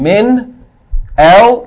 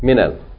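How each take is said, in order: First: The two words are said separately, without a vowel. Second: The two words are joined with a linking vowel. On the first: The speaker calls it wrong. "instead of it being min al" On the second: The speaker calls it right. "You're going to join it together"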